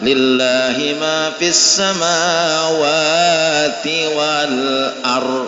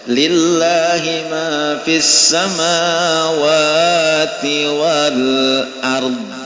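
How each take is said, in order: First: The final consonant is dropped and not heard. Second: The final consonant is clearly released with a bounce. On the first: The speaker calls it wrong. "Jangan ... salah baca Quran" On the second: The speaker calls it right. "mesti ada keluar ard"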